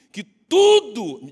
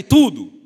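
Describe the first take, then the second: First: "tudo" stretched very slow and louder; slow, loud call on "tudo"; drawn-out emphasis. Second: "tudo" yelled out full volume; preacher's loud cry of "tudo"; shouted. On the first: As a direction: hold out "tudo" for the crowd to echo. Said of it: "diga tudo". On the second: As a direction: shout "tudo" to lead the congregation. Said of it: "grita aí". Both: Shown as a demonstration.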